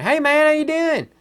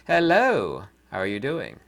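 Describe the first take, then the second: First: Much higher, louder hammed-up Southern greeting; Southern accent. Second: Said in the usual way. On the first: Shown as a demonstration. Vlogger showing he can talk like a Southerner, hammed-up accent. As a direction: greet like a good old Southern boy. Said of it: "I could talk like a Southerner". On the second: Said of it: "Or I can talk like a normal person".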